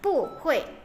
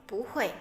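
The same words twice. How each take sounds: First: The syllable bu carries the fourth tone. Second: The syllable bu carries the second tone. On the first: This is the original, unchanged form. "dari kata aslinya bu hui" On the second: This is the changed form before another fourth tone. "maka pu itu berubah menjadi nada kedua"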